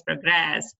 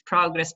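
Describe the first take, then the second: First: "progress" as the verb, pro-GRESS; last-syllable stress. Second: "Progress" as the noun, PRO-gress; first-syllable stress. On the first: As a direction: lean on the end of "progress". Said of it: "The stress is on the last". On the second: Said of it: "on the first syllable". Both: Shown as a demonstration.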